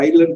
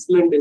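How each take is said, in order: First: The s is silent; it starts with eye. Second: The s is pronounced; it starts with is. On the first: The speaker calls it right. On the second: The speaker calls it wrong.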